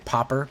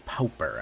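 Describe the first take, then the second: First: The first vowel is a short open 'ah'. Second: The first vowel is a rounded 'aw' sound. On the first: This is how some other people say it. "some people say Popper" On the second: This is how the speaker prefers to say it. "I like to really pronounce that U in there"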